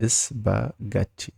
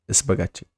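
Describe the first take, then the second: First: "Spaghetti" very slowly as is-ba-gat-ti; syllable by syllable. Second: Said in the usual way. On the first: Shown as a demonstration. Teacher showing learners the word, syllable by syllable. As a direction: split "Spaghetti" into slow separate beats.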